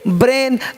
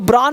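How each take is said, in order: First: The vowel sounds like 'ay'. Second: The vowel sounds like 'ah'. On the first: The speaker calls it right. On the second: The speaker calls it wrong. "ब्रान नहीं पढ़ते"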